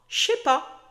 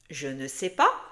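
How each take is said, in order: First: The 'ne' is dropped, run together as one block. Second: Every word is said, including 'ne'. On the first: "Tu sens la différence?" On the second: "Dis à haute voix"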